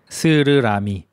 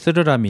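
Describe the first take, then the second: First: The s sound is crisp and clear. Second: The s sound comes out lisped like th. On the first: The speaker calls it right. "저는 이거 연습했어요" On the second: The speaker calls it wrong. "옛날에 저도 스르라미 이렇게 했어요. 혀가 짧아서"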